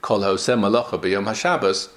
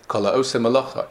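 First: The pause comes after shabbos. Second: The pause comes after malacha.

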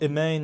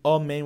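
First: The first vowel is short and reduced. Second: The first vowel is full and open. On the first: The speaker calls it wrong. "with a chatef, it means with a shva" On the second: The speaker calls it right. "instead of saying amen with a kamat"

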